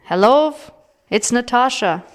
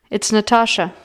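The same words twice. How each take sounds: First: Shouting. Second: Said in the usual way. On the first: A narrator's reading. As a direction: raise the voice to be heard. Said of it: "I scream". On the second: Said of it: "I say".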